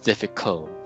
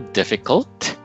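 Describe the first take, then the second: First: The final T sound is left off. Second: The final T sound is clearly pronounced.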